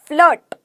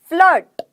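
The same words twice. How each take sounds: No difference in how they are said.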